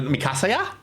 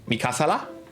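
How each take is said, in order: First: The consonant before the last vowel is a Y. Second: The consonant before the last vowel is an L. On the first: The speaker calls it right. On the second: The speaker calls it wrong.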